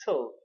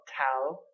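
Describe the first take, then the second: First: "tal" as a weak, reduced syllable like "tul"; correct reduced tal. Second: "tal" with a full, open vowel; mispronounced tal. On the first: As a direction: reduce the vowel in "tal" as at the end of fatal. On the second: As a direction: say "tal" as a full syllable, not reduced. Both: Shown as a demonstration. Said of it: "not tal".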